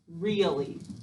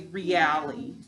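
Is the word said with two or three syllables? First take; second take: two; three. First: It is said naturally in two syllables. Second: It is said slowly in three separate syllables.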